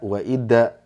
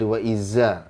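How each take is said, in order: First: The consonant is a hard d sound. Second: The consonant is a buzzing z sound. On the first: "kesalahan umum kadang jadi da" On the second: "Kadang menyerupai za tuh. Nah, itu salah"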